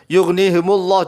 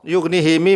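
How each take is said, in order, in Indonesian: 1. Huruf m diikuti oleh vokal u. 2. Huruf m diikuti oleh vokal i. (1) "memnya itu takhallus di domah" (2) "haknya di kasroh him"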